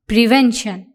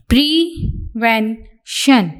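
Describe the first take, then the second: First: Said in the usual way. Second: prevention drawn out slowly, every syllable stretched; slow dictation take. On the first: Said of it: "repeat of the word". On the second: Shown as a demonstration. Teacher dictating prevention to the class, slow and stretched. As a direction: stretch prevention out so students can write it. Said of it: "dictation word said for writing".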